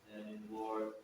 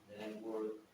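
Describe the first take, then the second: No difference in how they are said.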